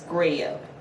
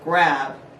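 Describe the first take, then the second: First: The vowel glides like the word yeah. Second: The vowel is a plain short A. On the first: The speaker calls it right. "they're like yeah" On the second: The speaker calls it wrong. "Instead of grab"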